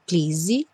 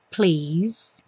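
First: An extra vowel sound is added at the end. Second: It ends on the consonant with no vowel. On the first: The speaker calls it wrong. "nada de please" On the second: The speaker calls it right. "sem o som do E"

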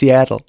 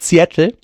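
First: It is said with an American pronunciation. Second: It is said with a German-style pronunciation. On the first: The speaker calls it right. "es ist Seattle" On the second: The speaker calls it wrong. "Es ist nämlich nicht Seattle"

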